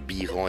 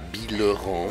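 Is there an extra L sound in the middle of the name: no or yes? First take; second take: no; yes. First: The name is said without an L sound. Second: The name is said with an added L sound. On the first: The speaker calls it right. "Biran se prononce Biran" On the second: The speaker calls it wrong. "et non pas Bileran"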